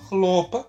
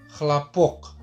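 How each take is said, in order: First: The stress is on the first syllable. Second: The stress is on the second syllable. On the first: It means cotton. "tekanannya di chlo" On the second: It means applause. "yang penting di o-nya, di poknya jadi chlapok"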